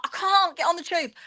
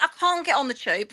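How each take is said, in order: First: Pitched much higher, pleading; insistent refusal. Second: Said in the usual way. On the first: Retold or imitated. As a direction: push the refusal up in exasperation. Retold argument, escalating refusal.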